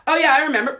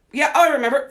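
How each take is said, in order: First: High, eager voice of the body; mock body voice. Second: High, eager voice of the body; the body chirping that it remembers; mock body voice. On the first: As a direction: play the body happily remembering. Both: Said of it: "Flare up".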